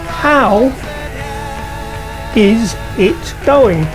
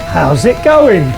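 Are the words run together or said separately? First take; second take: separately; run together. First: Each word is pronounced separately and fully. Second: The words are squeezed together into one sound.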